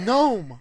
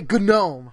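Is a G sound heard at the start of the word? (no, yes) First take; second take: no; yes. First: The word begins with a plain N sound. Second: The word begins with a hard G sound. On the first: "if it just says gnome?" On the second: "I say gnome. Because it's like, what the fuck?"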